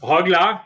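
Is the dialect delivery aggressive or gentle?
aggressive. It is said in a harsh, aggressive Bergen dialect. The word refers to a shotgun. "Det er den aggressive bergens"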